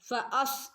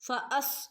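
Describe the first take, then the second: Both takes have the same delivery.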